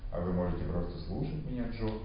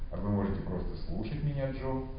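Both takes have the same delivery.

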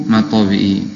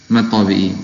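The two takes are said the same way.

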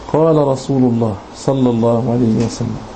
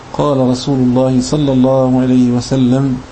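No difference in how they are said.

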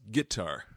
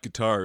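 First: It is said in a Southern US accent. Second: It is said in a plain standard accent. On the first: "it's guitar, right? That southern accent" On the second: "It's not guitar"

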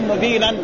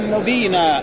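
First: The word ends in a silent consonant. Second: The word ends in a long a vowel.

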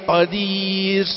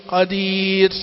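The two takes are said the same way.

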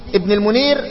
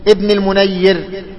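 First: The middle consonant is said short and single. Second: The middle consonant is doubled and held longer. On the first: It names a narrator of a hadith collection. "بالتخفيف" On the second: It names the commentator. "بالتجديد"

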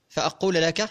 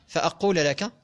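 Both takes have the same delivery.

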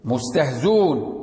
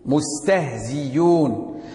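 First: The glottal stop is dropped; z flows into u. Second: The glottal stop is replaced by a clear y. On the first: "حذف الهمزة وضم ما قبل الواو" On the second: "الإبدال، إبدالها ياء خالصة"

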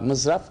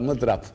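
First: The middle consonant is a z sound. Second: The middle consonant is an emphatic d sound. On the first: The speaker calls it wrong. "z ile değil" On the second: The speaker calls it right. "dadıla mıdrap"

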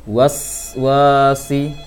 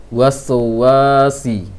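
The two takes are said the same way.

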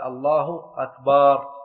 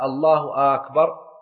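First: The vowel after the b is drawn out. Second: The first vowel of akbar is drawn out. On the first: It turns the word into a plural meaning drums. "لو مد الباء في أكبر" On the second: It asks whether God is greatest or not. "لو مد همزة أكبر"

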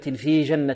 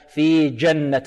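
First: The j sound is soft, without a firm stop. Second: The j sound is said with a firm stop. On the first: The speaker calls it wrong. "لا نقول في جنة" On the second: The speaker calls it right. "نعطيها صفة شدة"

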